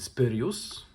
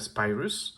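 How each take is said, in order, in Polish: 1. Nazwę wymawia się po polsku. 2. Nazwę wymawia się po angielsku.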